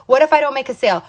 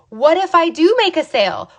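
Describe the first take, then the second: First: Doubting what-if, only slightly raised; mildly acted self-doubt. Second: "do" stressed, pitched high; higher, hopeful question leaning on "do"; hopeful what-if. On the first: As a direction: voice a fence-sitter's worry, mildly. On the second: Acted. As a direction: counter the doubt, lifting "do" high. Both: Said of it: "That's the wrong what ifs".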